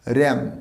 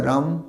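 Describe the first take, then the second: First: র্যাম with a front e-like a; ram with short a. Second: রাম with open a, as in the drink; the রাম sound, wrong here; wrong ram. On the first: Teacher giving the animal word র্যাম. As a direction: say র্যাম, not রাম. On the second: Teacher showing the wrong রাম for sheep. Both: Shown as a demonstration. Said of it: "not the রাম".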